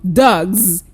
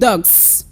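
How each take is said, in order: First: The word ends in a buzzing z sound. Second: The word ends in a hissing s sound. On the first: The speaker calls it right. "the plural marker is pronounced as z" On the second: The speaker calls it wrong. "You don't go saying"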